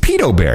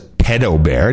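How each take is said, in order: First: The first syllable sounds like 'peed', long vowel. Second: The first syllable sounds like 'ped' in pedicure. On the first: The speaker calls it right. "if you're on the interwebs, it's pedo bear" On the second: The speaker calls it wrong. "No one says pedo bear. It's not like a pedicure"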